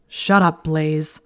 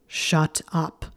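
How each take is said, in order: First: Sharp, loud snap at Blaise; snapped. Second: Snarled. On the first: Draco snapping at Blaise in the dorm, loud and sharp. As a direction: cut him off hard and loud. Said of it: "Draco snapped". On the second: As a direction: bite it off with a growl. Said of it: "Draco snarled". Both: A narrator's reading.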